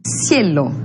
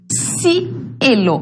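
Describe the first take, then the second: First: Said in the usual way. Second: "cielo" drawn out in two parts, a break after "ci"; syllable-by-syllable "cielo"; split syllables. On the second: Shown as a demonstration. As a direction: say "cielo" slowly, piece by piece. Teacher demonstrates syllables of a diphthong.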